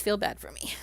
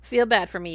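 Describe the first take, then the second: First: Mock-pitiful whisper of feel bad for me. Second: Said in the usual way. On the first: Shown as a demonstration. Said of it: "whispered repeat". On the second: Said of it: "repeated as whisper".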